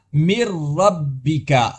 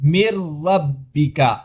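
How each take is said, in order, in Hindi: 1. नून पूरी तरह र में मुदगम हो जाता है। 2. नून पूरी तरह र में मुदगम हो जाता है।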